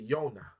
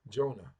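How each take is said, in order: First: The name starts with a Y sound. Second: The name starts with a J sound. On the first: This is the original Hebrew form. "there is no J in the in the Hebrew language, so we say Yonah" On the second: This is the usual English form. "the book of Jonah"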